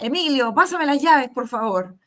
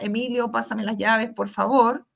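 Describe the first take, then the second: First: The request is said in a harsh, commanding tone. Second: The request is said in a warm, friendly tone. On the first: The speaker is giving an order. The speaker calls it wrong. "el otro más impositivo" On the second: The speaker is asking politely. The speaker calls it right. "un tono más cordial"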